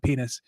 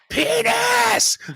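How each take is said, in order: First: It is said at moderate volume. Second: It is screamed very loudly.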